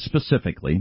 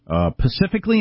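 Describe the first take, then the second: First: The word begins with an 'spe' sound. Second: The word begins with a 'pa' sound. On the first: The speaker calls it right. "instead of specifically" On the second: The speaker calls it wrong. "10 most annoying mispronounced words"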